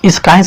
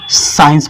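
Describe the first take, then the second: First: The c is pronounced as a k sound. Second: The c is silent, no k sound. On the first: The speaker calls it wrong. "इसको हम स्काइंस नहीं पढ़ेंगे" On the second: The speaker calls it right. "इसको हम साइंस पढ़ेंगे"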